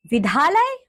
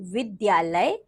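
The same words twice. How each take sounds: First: "विद्यालय" without the y, "vidhaalay"; wrong pronunciation. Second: Said in the usual way. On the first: Shown as a demonstration. Teacher showing pupils the error, "विद्यालय" mispronounced as "vidhaalay". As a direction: drop the y glide from "विद्यालय". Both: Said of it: "अन्य अशुद्धियां कुछ".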